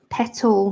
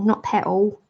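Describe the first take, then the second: First: The T in the middle is clearly pronounced. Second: The T in the middle is dropped. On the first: The speaker calls it right. "I should have pronounced my T in that" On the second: The speaker calls it wrong.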